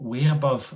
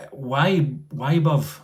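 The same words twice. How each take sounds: First: "way above" with "way" rhyming with day, falling; "way above" said quickly, questioning; corrected try. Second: "why above" said slow, drawn out, with "why" like English why; slow, careful "why above", pitch up; first try at the word. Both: Shown as a demonstration. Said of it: "I don't know how to say that".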